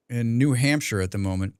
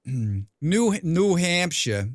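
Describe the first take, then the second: First: Said in the usual way. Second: "New Hampshire" drawn out slowly, stressing "New"; slow careful "New Hampshire". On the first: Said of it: "I'm a native Vermonter". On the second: Shown as a demonstration. Correcting how a chatter says the state, slowly.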